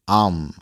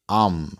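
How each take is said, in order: First: The word is reduced to a short 'um' sound. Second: The word is reduced to a short 'um' sound.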